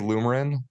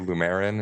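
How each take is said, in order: First: The middle syllable is not stressed. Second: The middle syllable with the E is stressed. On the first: "so I say Lumarin" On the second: "Some people say Lumerin and stress the E"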